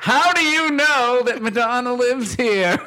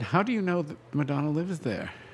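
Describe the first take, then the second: First: It is said noticeably louder. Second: It is said at a normal volume.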